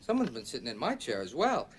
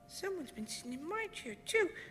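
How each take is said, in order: First: It is said in a medium-sized voice. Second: It is said in a wee small voice.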